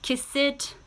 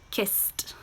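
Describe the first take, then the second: First: The word is said as two syllables. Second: The word is said as one syllable. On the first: The speaker calls it wrong. "We do not say" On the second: The speaker calls it right. "these are now still one syllable"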